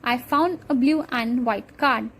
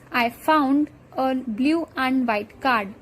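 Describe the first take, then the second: First: The final D sounds are dropped. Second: The final D sounds are clearly pronounced.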